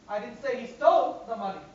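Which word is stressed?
stole. The word stole is stressed. He took or borrowed it rather than stealing it. "Maybe he took it, borrowed it"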